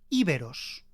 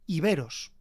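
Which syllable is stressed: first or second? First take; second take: first; second. First: The stress is on the first syllable. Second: The stress is on the second syllable. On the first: It follows the original Greek pronunciation. "en el griego el acento está en la i" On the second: It follows the Latin pronunciation. "los romanos acentuaban este sonido"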